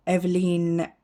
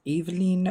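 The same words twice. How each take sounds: First: Eveline said as EH-vuh-leen, short e first; first try at Eveline, EH-vuh-leen with an open E; unsure pronunciation. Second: Eveline said as EE-vuh-leen, long ee first; second pronunciation try. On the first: Unsure of a brand name, trying Eveline as EH-vuh-leen. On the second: Unsure of a brand name, retrying Eveline as EE-vuh-leen. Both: Shown as a demonstration. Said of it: "I don't know how you pronounce that".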